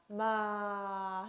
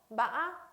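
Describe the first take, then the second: First: The pitch falls low through the syllable. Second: The pitch rises with a sharp break midway. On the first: "마 하고 내려줘요" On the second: "약간의 상승되는 음, 그러나 꺾임이 심한 거"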